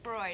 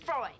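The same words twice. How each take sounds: First: It is said flatly, without emphasis. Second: It is said excitedly, with exclamation.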